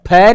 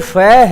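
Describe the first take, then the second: First: The first sound is an aspirated ph. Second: The first sound is a soft f. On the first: The speaker calls it wrong. "फै नहीं है" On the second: The speaker calls it right. "ये फै है"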